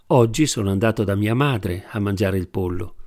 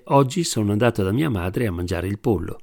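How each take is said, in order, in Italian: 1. L'accento cade sulla parola madre. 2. L'accento cade sulla parola pollo. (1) "Se invece la domanda fosse «Dove sei andato oggi a mangiare il pollo?»" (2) "Se infine fosse chiesto «Cosa hai mangiato oggi da tua madre?»"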